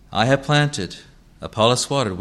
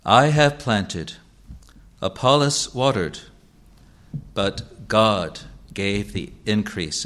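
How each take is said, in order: First: Said in the usual way. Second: Slow reading with "God" as the key word; stress on God. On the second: Shown as a demonstration. Preacher reading the verse to the congregation, slow with weight on "God". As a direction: read the verse slowly, leaning on "God". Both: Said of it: "the word that is underlined is God".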